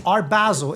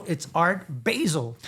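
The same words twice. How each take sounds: First: Higher "Basel" with a short A, "bazzel"; corrected pronunciation. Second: Slow, insistent "Basel" as "bay-zel"; mispronounced. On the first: Shown as a demonstration. Correcting people on the city, properly pronounced. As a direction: insist on the A in "Basel". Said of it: "It's not a spice". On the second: Retold or imitated. People arguing back, mispronounced. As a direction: stretch "Basel" to rhyme with hazel. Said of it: "they're like".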